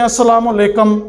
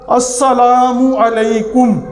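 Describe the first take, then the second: First: "السلام علیکم" slurred as asalama lekam; wrong pronunciation. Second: Slow, clear "السلام علیکم" with full assalamu alaikum; careful pronunciation. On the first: Teacher showing viewers the wrong "السلام علیکم", slurred. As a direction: run "السلام علیکم" together sloppily, as the wrong way. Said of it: "یہ بھی غلط ہے". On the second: Teacher pronouncing "السلام علیکم" slowly for viewers to repeat. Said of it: "پہلے میں کہتا ہوں". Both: Shown as a demonstration.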